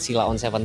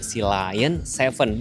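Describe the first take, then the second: First: The name sounds like 'see-la-on'. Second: The name sounds like 'sea lion'. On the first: The speaker calls it wrong. "pelafalannya bukan Sila on tujuh" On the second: The speaker calls it right. "tapi B Y D Sea Lion tujuh"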